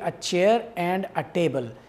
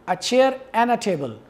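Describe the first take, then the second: First: The word 'and' is said in full. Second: The word 'and' is reduced to 'n'. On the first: "In writing, this will be" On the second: "and will be pronounced as a weak form"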